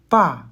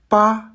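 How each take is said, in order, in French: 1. La syllabe se prononce avec le quatrième ton. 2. La syllabe se prononce avec le premier ton. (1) "Quatrième ton" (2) "Premier ton"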